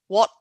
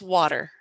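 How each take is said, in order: First: It is said in a British received accent. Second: It is said in an American accent. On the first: "in more of a received, British received, it'd be more like water" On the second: "And American is water"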